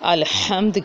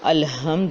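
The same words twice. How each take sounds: First: The h is harsh, from the middle throat. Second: The h is soft, from the lower throat. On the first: The speaker calls it right. "हा हलक के दरमियान से निकालने का हक था" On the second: The speaker calls it wrong. "दो चश्मी हा लगा देना"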